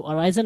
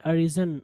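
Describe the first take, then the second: First: Arisen wrongly as uh-RAI-zen; long eye vowel in arisen; mispronunciation demo. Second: Arisen as uh-RIZ-en; short riz in the middle of arisen; correct pronunciation. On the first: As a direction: say arisen with rise inside it. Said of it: "आप इसको arisen नहीं पढ़ेंगे". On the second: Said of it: "जबकि ये arisen है". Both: Shown as a demonstration.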